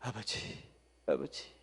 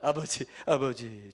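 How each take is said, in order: First: It is said quietly in a whisper. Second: It is said in a normal voice.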